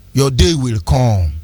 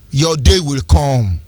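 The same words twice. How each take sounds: First: Low, slow menace; slower grave warning. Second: Slow, grave warning, low in the voice; low, slow threat. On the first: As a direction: repeat it low and slow, leaning on "day". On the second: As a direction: lean on "day" slowly and darkly. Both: Real, not acted. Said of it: "repeated warning".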